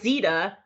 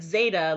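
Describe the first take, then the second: First: The first vowel sounds like 'ee', rhyming with Velveeta. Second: The first vowel sounds like 'ay', rhyming with later. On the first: The speaker calls it wrong. "It's not zeta like Velveeta" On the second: The speaker calls it right. "but zeta like see you later"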